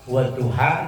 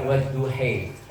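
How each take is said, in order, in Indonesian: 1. Kata ini berakhir dengan bunyi 'a'. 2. Kata ini berakhir dengan bunyi 'e'. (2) "dia baca wadduhe"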